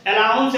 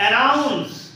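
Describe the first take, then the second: First: अलाउंस said with an L sound, a-LAUNS; अलाउंस with L in place of N, as a teacher's example of the mistake; wrong pronunciation. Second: अनाउंस said with a clear N sound, a-NAUNS; अनाउंस with N, as a teacher's correction; correct pronunciation. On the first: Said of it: "अलाउंस नहीं है". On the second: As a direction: stress the N in अनाउंस as the right form. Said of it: "उसको बोलते हैं अनाउंस". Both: Shown as a demonstration.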